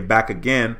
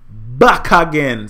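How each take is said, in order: First: It is said in an American accent. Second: It is said in a Jamaican accent. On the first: "in the States, we'll say back again" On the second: "being a Jamaican, we say back again"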